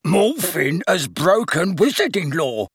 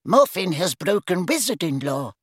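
First: Mocking, drawn-out sing-song imitation; pompous sing-song. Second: Stern, higher-pitched official statement. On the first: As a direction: mimic him pompously, slow and high. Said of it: "making it pompous and sing-song". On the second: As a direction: state the charge sternly and formally. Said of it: "said Ogden sternly". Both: A narrator's reading.

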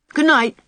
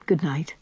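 First: Put-on high, loud child's good night; cheery little boy. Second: Weary adult reply. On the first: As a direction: sing out a bedtime farewell like a small boy. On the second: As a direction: answer the child quietly, ready for sleep. Anne's sleepy answer to boy. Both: A narrator's reading.

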